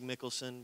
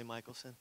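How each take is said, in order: First: "Mickelson" as it looks, opening with MICK; spelling-based pronunciation. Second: "Michelson" opening like MIKE; family's pronunciation. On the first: Preacher showing how his surname looks, "Mickelson" said with short MICK. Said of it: "Looks like Mickelson". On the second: Preacher giving his family's way of saying it, "Michelson" said with long-i MIKE. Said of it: "we say Michelson". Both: Shown as a demonstration.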